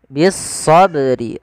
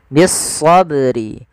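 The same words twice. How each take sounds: No difference in how they are said.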